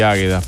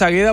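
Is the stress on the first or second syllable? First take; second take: first; second. First: The stress is on the first syllable. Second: The stress is on the second syllable. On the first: The name is read as if it had an accent mark. "lleva tilde y soy Águeda" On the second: The name is read as written without an accent mark. "no le leo el tilde"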